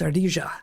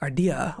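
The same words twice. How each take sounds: First: The double L is said with a j sound. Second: The double L is not said with a j sound.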